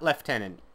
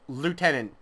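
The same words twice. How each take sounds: First: It is pronounced the English voice cast's way. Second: It is pronounced following the French word. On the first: The speaker calls it wrong. "not lieutenant" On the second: The speaker calls it right. "It is lieutenant"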